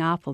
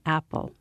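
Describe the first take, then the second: First: The word is said with an Irish accent. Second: The word is said with an American accent. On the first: "they're not saying apple" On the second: "they're saying apple"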